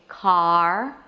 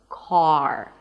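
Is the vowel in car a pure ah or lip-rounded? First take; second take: pure; rounded. First: The vowel is a pure open ah. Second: The vowel is said with rounded lips. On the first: The speaker calls it wrong. "you don't say car, ah, as in father" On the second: The speaker calls it right. "you want to round your lips a bit more"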